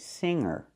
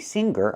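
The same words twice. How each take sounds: First: The ng is nasal with no hard g. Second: A hard g follows the ng sound. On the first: The speaker calls it right. "I say singer. The sound is in your nose" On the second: The speaker calls it wrong. "I cannot pronounce the g, g, the hard G sound here. I cannot say singer"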